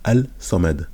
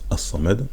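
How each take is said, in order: First: An L sound is heard before the s. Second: The L is absorbed into a doubled s. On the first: This is the underlying written form. "c'est comme si on disait al-samad" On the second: This is how it is actually pronounced. "mais sauf qu'on prononce as-samad"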